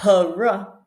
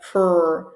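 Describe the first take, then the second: First: A vowel sound separates the p and the r. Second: The p and r join with no vowel. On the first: The speaker calls it wrong. "not putting any vowel sounds in between. So not p, r" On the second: The speaker calls it right. "but pr, pr, practice. So it goes all together"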